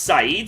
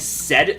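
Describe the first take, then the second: First: It is said as two syllables, sa-eed. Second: It sounds like the English word said. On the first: The speaker calls it right. "apparently it's pronounced Saeed" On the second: The speaker calls it wrong. "that's how it looks from an English word"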